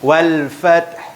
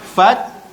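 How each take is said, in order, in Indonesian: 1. Kata ini berakhir dengan bunyi h berdesah yang lembut. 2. Kata ini berakhir tanpa sebarang bunyi h berdesah. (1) "kena ada angin kat belakang" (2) "fat tak bunyi huruf ha"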